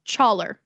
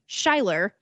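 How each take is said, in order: First: The name is said in a southern accent. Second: The name is said in a plain accent. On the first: "moved a little bit south and started changing my name" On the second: "I went from being"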